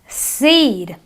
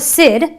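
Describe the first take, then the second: First: The vowel is long and stretched. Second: The vowel is short and clipped. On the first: The speaker calls it right. "It is a long E" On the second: The speaker calls it wrong. "not a sid"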